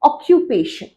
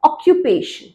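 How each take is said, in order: No difference in how they are said.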